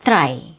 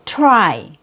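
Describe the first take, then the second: First: "try" with Cebuano T, tongue tip between teeth; lower-pitched Cebuano "try" with an unpopped T; Cebuano accent. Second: "try" with a popped, released T; true English T. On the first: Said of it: "my native accent". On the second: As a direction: pop the T at the start of "try". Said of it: "that's how you make a true T sound". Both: Shown as a demonstration.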